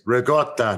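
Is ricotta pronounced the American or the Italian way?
Italian. The word has an Italian pronunciation. The speaker calls it right. "It's ricotta"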